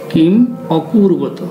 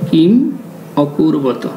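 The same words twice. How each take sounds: The two takes are said the same way.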